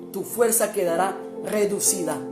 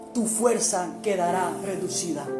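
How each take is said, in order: Both takes have the same delivery.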